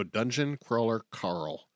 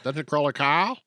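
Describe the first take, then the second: First: "Dungeon Crawler Carl" said slowly, each word separate; slow careful. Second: "Dungeon Crawler Carl" in a Boston accent, rising at the end. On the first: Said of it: "I have to pause and slowly go". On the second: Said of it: "my Boston accent will be out". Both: Shown as a demonstration.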